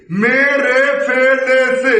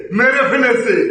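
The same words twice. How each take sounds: First: "মেরে ফেলেছে" slowly drawn out as me-re-fe-le-se; syllables stretched out. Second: Said in the usual way. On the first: Shown as a demonstration. Teacher shows what the wrong sound becomes, syllables stretched out. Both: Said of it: "তাহলে উচ্চারণটা কি হয় দেখেন".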